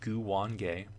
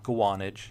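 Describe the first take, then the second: First: The name is said as Gu-wan-ge. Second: The name is said as Gwa-nage. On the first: The speaker calls it right. "it is pronounced Guwange" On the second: The speaker calls it wrong. "no, it's not Guanage"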